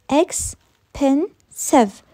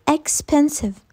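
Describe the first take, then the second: First: "expensive" in three slow, separated beats; syllable by syllable. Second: Said in the usual way. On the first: Shown as a demonstration. Teacher proving it has three syllables, "expensive" very slowly split. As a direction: stretch "expensive" out, pausing between syllables. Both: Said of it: "Three syllables".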